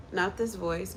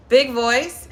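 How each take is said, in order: First: Said in the usual way. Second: Loud projected call; big voice. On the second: Shown as a demonstration. Teacher contrasting big voice with small voice, loud projection. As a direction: boom it out. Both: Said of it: "use that voice, not this voice".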